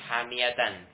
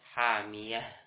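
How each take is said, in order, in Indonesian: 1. Kata ini berakhir dengan bunyi -tan. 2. Kata ini berakhir dengan bunyi h. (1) "fathatain di sini" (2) "tapi hamiyah"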